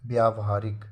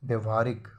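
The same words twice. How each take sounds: First: व्यावहारिक with long first vowel; correct form. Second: व्यवहारिक with short first vowel; wrong form. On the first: Teacher giving the correction, व्यावहारिक with long vyaa. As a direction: say व्यावहारिक as vyaa-va-haa-rik. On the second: Teacher showing a misspelling, व्यवहारिक with short vya. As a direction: say व्यवहारिक as vya-va-haa-rik. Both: Shown as a demonstration.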